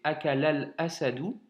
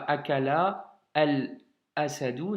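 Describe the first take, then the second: First: The verb runs straight into the article. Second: The verb and the article are said separately. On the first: The speaker calls it right. "c'est akalal asadou" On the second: The speaker calls it wrong. "c'est pas akala al asadou, non"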